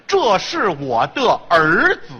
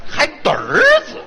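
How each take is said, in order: First: 的儿子 detto lento, sillaba per sillaba, senza erhua; without erhua. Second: 的儿子 in tono beffardo, molto più acuto, fuso in erhua; mocking erhua. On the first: Shown as a demonstration. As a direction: scandisci 的儿子 come tre sillabe separate. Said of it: "这儿不是儿化音". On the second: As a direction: scimmiotta 的儿子 con voce alta e ridendo.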